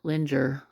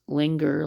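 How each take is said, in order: First: The g is soft, like j in plunger. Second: The g is hard, as in finger. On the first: "linger like plunger" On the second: "linger like finger"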